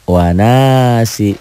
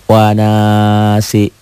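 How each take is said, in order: No difference in how they are said.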